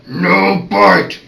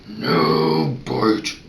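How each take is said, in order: First: Loud, higher growled warning; growling tone. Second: Very low, controlled growl; calm growl. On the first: Vet correcting a puppy chewing his hand, loud growl. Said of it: "The other one is the growling tone of voice". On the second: Vet calmly correcting a puppy who bites, low growl. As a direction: growl it low without yelling. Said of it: "calmly saying". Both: Shown as a demonstration.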